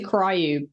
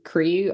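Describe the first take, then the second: First: The vowel has a y glide before oo. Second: The vowel is a plain oo sound. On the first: The speaker calls it wrong. "I always say it wrong. I always say cryu" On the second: The speaker calls it right. "I think that's how you pronounce it"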